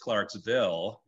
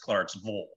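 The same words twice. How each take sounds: First: The last syllable sounds like 'vil'. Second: The last syllable sounds like 'vul'. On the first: The speaker is not from the town. "If you're from like a different part of the country" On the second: The speaker is from the town. "If you're from there, then it's Vol"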